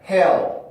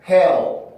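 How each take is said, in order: First: The final L is dark, with stressed vowel. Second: The final L is dark, with stressed vowel.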